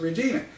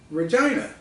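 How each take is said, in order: First: The name does not rhyme with 'vagina'. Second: The name rhymes with 'vagina'. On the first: This is how an American would read it. The speaker calls it wrong. "as an American, I would naturally pronounce it Regina" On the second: This is how Canadians say it. The speaker calls it right. "pronounced Regina by Canadians, which rhymes with that female body part"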